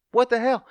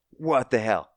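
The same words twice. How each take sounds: First: Higher, louder shocked repeat. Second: Said in the usual way. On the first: Retold or imitated. Recounting the viewers' reaction to the massacre, a louder shocked repeat. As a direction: jump up in disbelief.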